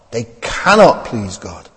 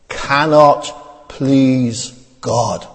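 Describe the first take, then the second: First: Said in the usual way. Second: Cannot please God drawn out very slowly; solemn drawn-out cannot please God; slow stress on cannot. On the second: Shown as a demonstration. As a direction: stretch every word, weight on cannot. Scripture stressed by reading.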